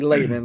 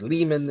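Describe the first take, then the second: First: The first syllable sounds like the word 'lay'. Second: The first syllable does not sound like 'lay'. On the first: The speaker calls it right. "It's actually Layman, like L A Y M A N" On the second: The speaker calls it wrong. "Lehman is one of the biggest ones"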